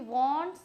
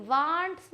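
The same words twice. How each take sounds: First: Wants with a rounded "aw" vowel; correct pronunciation. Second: Wants with a long "ah" vowel; wrong pronunciation. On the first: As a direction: say wants as "wawnts". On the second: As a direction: say wants as "vaants". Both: Shown as a demonstration. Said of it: "wants नहीं बोलना है यहाँ पे".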